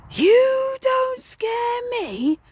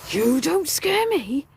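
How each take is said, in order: First: Very high, very slow, drawn-out wail; spirit's eerie taunt. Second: Slow, higher defiant ghostly taunt; spirit's taunt. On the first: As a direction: stretch it into a ghostly sing-song. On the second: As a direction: drag it out like a haunting spirit. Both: Retold or imitated. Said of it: "looked at me and he said".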